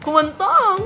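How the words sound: It is said in a happy, cheerful voice. "Ayun, happy"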